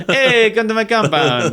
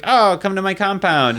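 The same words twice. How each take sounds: First: Loud, high hammed-up dictator; Mussolini. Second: High, welcoming mock dictator; lightly hammed-up invitation, pitched up; Mussolini. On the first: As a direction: holler a big mock welcome, pitched way up. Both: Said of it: "What a great Mussolini impression".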